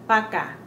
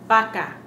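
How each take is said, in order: No difference in how they are said.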